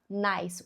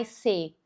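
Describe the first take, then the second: First: The word ends on the s, no vowel after. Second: A vowel sound is added after the final s. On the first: The speaker calls it right. "só nice. O som do E vai ser oculto" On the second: The speaker calls it wrong. "Você não vai falar nice"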